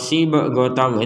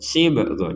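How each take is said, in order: First: The b is followed by a full vowel. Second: The b is released with a light bounce. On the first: The speaker calls it wrong. "itu kan terlalu" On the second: The speaker calls it right. "kita memantulkan saja"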